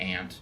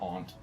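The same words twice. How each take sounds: First: It is said the American way. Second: It is said in a non-American way. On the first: "With an American accent, it turns out a whole lot more like aunt" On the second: "than aunt"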